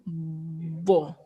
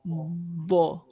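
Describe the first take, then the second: The two takes are said the same way.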